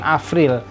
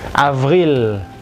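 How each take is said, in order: First: The middle consonant is a p sound, not v. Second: The middle consonant is a voiced v sound. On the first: The speaker calls it wrong. "jangan April" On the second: The speaker calls it right. "V-nya jangan lupa"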